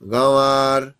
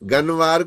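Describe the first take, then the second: First: The n is dropped, leaving only a nasal vowel. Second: The n is pronounced as a full consonant. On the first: The speaker calls it right. "जैसे यहां पढ़ते हुए हम नून को गायब करते हैं ना" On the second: The speaker calls it wrong. "गनवार कोई नहीं कहता"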